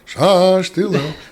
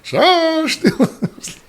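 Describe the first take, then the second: First: It is said at a louder volume. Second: It is said at the loudest volume. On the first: "raise your voice" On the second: "raise your voice"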